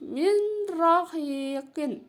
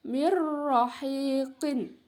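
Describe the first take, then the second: First: MIN ROHIQIN with the n sounded before r; as written, unmerged. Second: MIR ROHIQIN slow, n replaced by a held rolled r; merged idgham reading. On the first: Teacher reading the written form, n left clear. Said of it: "tertulis di situ". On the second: Teacher showing how it is read, r doubled. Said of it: "ya, dibacanya". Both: Shown as a demonstration.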